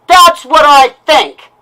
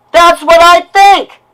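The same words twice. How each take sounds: First: Loud and slow, spitting out that's; livid, words set apart; angry retort. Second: Louder and higher, slow and hammered; real rage, each word pounded; furious shout. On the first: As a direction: slam it down, bitter and blunt. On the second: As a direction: yell it, shaking with anger. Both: Real, not acted. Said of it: "what you just heard is a lash out".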